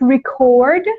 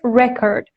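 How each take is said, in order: First: The stress is on the second syllable. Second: The stress is on the first syllable. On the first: It is used as a verb. "The verb form is pronounced record" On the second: It is used as a noun. "but this one is record"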